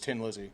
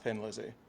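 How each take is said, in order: First: The first word begins with a plain T sound. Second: The first word begins with a TH sound. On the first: This is how it is said in Ireland. "in Ireland, it's Tin Lizzy" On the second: This is how it is said outside Ireland. "not Thin Lizzy"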